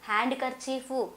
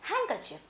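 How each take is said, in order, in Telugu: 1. d ధ్వని స్పష్టంగా ఉచ్చరించబడుతుంది. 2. d ధ్వని పలకబడదు. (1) "అనకూడదు" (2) "డి తర్వాత ఎన్ వస్తే డీని మనము పలకొద్దు"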